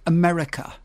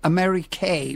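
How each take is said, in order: First: The word ends in a short 'uh' vowel. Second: The word ends in a long 'ay' vowel. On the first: "quite often they don't say America" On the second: "they say Ameri-kay, because it usually rhymes with something"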